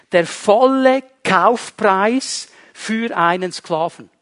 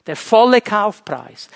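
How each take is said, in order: First: "volle" stressed with a falling tune, whole phrase spoken slowly; weighty slow stress on "volle"; slow emphatic. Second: Said in the usual way. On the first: Shown as a demonstration. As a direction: lean on "volle" and take it slow.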